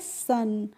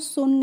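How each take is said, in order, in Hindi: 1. स्वर 'uh' जैसा सुनाई देता है। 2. स्वर 'oo' जैसा सुनाई देता है। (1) "क्या पढ़ते हैं सन" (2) "हम इसको सुन नहीं पढ़ते हैं"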